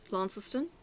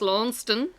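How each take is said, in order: First: It uses the local Tasmanian pronunciation. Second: It uses the Scottish pronunciation.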